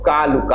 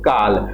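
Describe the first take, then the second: First: The word ends with a short u vowel. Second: The word ends on the consonant l. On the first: This is how it was said in Apabhramsha. "अंत में छोटा उ ध्वनि का उच्चारण होता होगा" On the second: This is how people say it today. "जैसे हम लोग काल कहते हैं"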